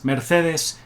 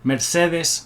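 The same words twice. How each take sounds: First: Mercedes with a lisped TH, "mair-THEH-thes"; Castilian Spanish pronunciation. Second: Mercedes with a Spanish S, "mair-SEH-thes"; Spanish pronunciation. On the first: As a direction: say Mercedes as "mer-THEH-dhes", Castilian style. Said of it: "is a Spanish name". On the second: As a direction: say Mercedes as "mer-SEH-dhes", S in the middle. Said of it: "Mercedes is a Spanish name". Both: Shown as a demonstration.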